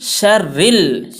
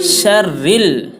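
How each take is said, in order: No difference in how they are said.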